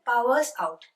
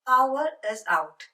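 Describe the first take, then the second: First: The words 'power is' are contracted together. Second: The words 'power is' are said in full.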